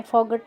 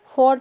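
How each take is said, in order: First: फॉगट with a hard g before the t; wrong sounded g. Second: फॉट with no g sound; silent gh. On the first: Teacher showing students the mistake, sounded g. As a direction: put a clear g into फॉगट. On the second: Teacher showing students the right reading, silent gh. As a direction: say फॉट straight, vowel to t. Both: Shown as a demonstration. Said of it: "फॉगट नहीं पढ़ते हैं".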